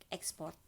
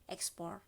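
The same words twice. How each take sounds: No difference in how they are said.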